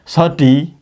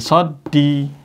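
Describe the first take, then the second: First: The d sound is short and single. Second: The d sound is held long and doubled. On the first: "Sodi satu" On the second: "kasih tasdid jadi sodi"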